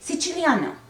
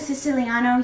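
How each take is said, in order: First: The word has an Italian-style pronunciation. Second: The word has an English-style pronunciation. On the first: "in Italian pronunciation" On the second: "So I call it a Siciliano"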